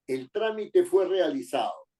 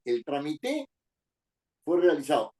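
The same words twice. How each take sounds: First: "trámite" stressed on the opening trá-; stress on first syllable. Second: "trámite" wrongly stressed on the final -te, as tra-mi-TE; misplaced final stress. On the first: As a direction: say "trámite" as TRA-mi-te. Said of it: "para que diga trámite". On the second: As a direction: say "trámite" with the accent on the last E. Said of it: "le pongo tilde en la E". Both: Shown as a demonstration.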